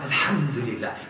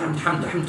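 First: It is said slowly and with feeling. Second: It is said quickly and mechanically.

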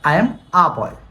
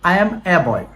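First: The article is said with an 'uh' vowel. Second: The article is said with an 'eh' vowel. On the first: The speaker calls it right. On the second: The speaker calls it wrong. "No I এম এ বয় হবে না"

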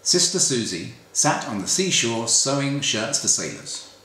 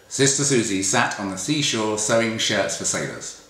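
First: The s sounds are clear, with no lisp. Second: The s sounds are slightly lisped. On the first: The speaker is not wearing aligners. "So that's me without them in" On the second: The speaker is wearing aligners. "a little bit of a lisp there"

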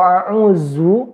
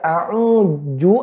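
First: The middle consonant sounds like z. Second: The middle consonant sounds like j. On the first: "tidak ada artinya a'uzu" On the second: "tidak ada artinya a'uju"

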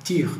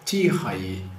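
First: The word is said quickly with its ending cut. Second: The word is said slowly with its full ending. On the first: "quando a gente fala rápido... só ir direto para o E" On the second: "quando a gente fala devagar, é comum a gente dizer tihai"

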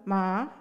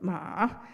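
First: The word is said in the second tone. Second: The word is said in the third tone. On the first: It means hemp. "In the second tone" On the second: It means horse. "In the third tone"

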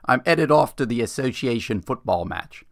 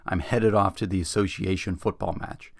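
First: It is said in a put-on English accent. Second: It is said in a plain American accent.

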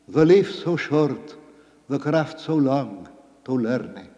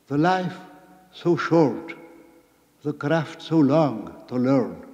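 First: It is spoken with old Middle English pronunciation. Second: It is spoken with modern English pronunciation.

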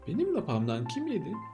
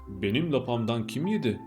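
First: It is said in a thin, high voice. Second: It is said in a big, deep voice. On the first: "ince sesli olanı" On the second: "iri ve kalın sesli olanı"

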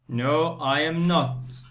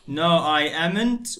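First: 'Am not' is said as two separate full words. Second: 'Am not' is said as one contracted word. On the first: The speaker calls it right. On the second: The speaker calls it wrong.

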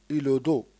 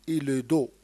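No difference in how they are said.

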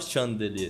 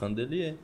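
First: The first syllable has the H sound. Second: The first syllable has no H sound. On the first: The speaker calls it wrong. "você não fala chandelier" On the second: The speaker calls it right. "não tem o som do H"

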